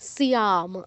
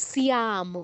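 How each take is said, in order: Both takes have the same delivery.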